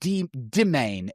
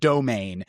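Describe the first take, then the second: First: The first syllable is said as 'de'. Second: The first syllable is said as 'do'. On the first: "it's just a little bit de- domain" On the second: "instead of domain"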